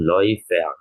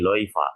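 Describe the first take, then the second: First: The word ends with a full 'er' sound. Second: The word ends with a plain 'a' sound. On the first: "Loifer ataupun Loifer" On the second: "kalau E R akhirannya boleh diganti seperti bunyi A saja ya, jadi Loifa"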